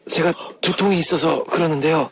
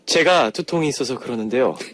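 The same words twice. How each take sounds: First: The voice sounds weak and unwell, like being ill. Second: The voice sounds healthy and normal, not unwell. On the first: The speaker calls it right. "You have to sound sick" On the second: The speaker calls it wrong. "you don't sound sick"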